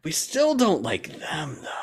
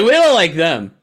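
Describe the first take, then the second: First: Mock grudging aside. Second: Loud, high mock objection; mock protest. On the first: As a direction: draw it out as a grudging, higher-pitched aside. Repeats the mimicked dislike, softer. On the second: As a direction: blurt out a mocking objection, raised voice. Mimics countries disliking each other.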